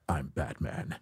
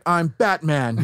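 First: It is said in a lower, rugged voice. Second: It is said in a higher-pitched voice.

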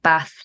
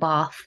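First: The word is said with a northern English vowel. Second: The word is said with a southern English vowel. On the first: This is how the speaker naturally says it. "I kind of have northern vowels. So I say like Bath" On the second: This is not how the speaker says it. "Not Bath"

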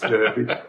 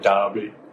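First: It is said the local way, like 'Durby'. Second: It is said the English way, like 'Darby'.

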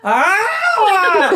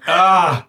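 First: The meow sounds impatient and demanding. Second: The meow sounds listless and half-hearted.

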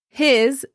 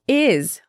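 First: The word begins with an audible h sound. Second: The word is said without its h sound. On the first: "His sounds like" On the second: "sounds like is when it's preceded by a consonant"

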